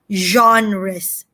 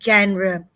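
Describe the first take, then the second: First: The word begins with a soft J sound. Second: The word begins without a soft J sound. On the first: The speaker calls it right. "It is pronounced as genres" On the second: The speaker calls it wrong. "not genre"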